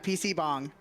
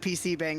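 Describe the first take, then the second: First: The last vowel sounds like the 'a' in father. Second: The last vowel sounds like the 'a' in cat. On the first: The speaker calls it right. "yeah, P C Bong" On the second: The speaker calls it wrong. "I pronounced it P C Bang the first time I ever played this"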